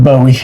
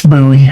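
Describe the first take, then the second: First: "Bowie" as BOH-ee, with long O; learned pronunciation. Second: "Bowie" as BOO-ee, with OO vowel; original pronunciation. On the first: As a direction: give "Bowie" the O of rainbow. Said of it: "We learned [name]". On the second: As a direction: make "Bowie" rhyme with gooey. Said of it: "That's how they actually said it". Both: Shown as a demonstration.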